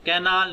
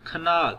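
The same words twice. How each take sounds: First: "कैनाल" with a full "kai" first vowel; wrong full vowel. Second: "खनाल" with a short "kuh", stressed "NAAL"; schwa in canal. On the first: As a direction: sound out "कैनाल" with an unreduced first syllable. ("कैनाल" में पहला स्वर पूरा ऐ) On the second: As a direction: reduce the first vowel of "खनाल" to schwa. ("खनाल" में पहला स्वर हल्का अ) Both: Shown as a demonstration. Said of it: "कैनाल नहीं पढ़ना".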